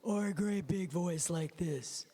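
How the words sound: It is said in a big, deep voice.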